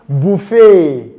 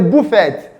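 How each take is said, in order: First: The T sound is silent. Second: The T sound is pronounced. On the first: The speaker calls it right. "that sound is silent" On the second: The speaker calls it wrong. "did I hear someone say buffet? No"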